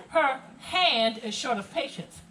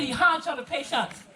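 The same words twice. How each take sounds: First: Very slow, each word set apart; slow translation. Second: A phrase in thick Gullah, raised and running together; Gullah dialect. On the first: Guide translating the coded warning for visitors, slow and clear. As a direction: spell it out slowly in standard English. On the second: Guide repeating the coded warning about Jill, Gullah dialect. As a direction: say it the Gullah way, words blurred together. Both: Shown as a demonstration.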